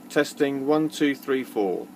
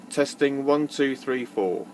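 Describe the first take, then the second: No difference in how they are said.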